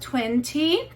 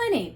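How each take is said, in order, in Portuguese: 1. Dito com cuidado, em sotaque britânico. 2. Dito mais rápido, em sotaque americano. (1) "uma forma um pouco mais britânica e mais formal" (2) "inglês mais americano e você já fala um pouquinho mais rápido"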